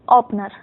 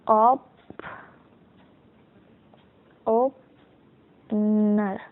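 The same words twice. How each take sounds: First: Said in the usual way. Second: opener in slow pieces, long gap before नर; sounding out. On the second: Shown as a demonstration. Teacher gives opener as shorthand example, sounding it out slowly. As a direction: stretch opener out as if writing along. Sounding out word while writing it.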